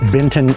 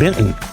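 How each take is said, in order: First: The name is said fully and carefully. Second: The name is said in a relaxed Southern way. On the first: "we never pronounced it Benton" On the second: "We always said Benton. ... we are very lazy with our language in the South"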